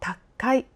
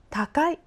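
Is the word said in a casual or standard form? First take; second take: casual; standard. First: The word is said with a clipped, tense, emphatic sound. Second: The word is said plainly with even, standard sounds.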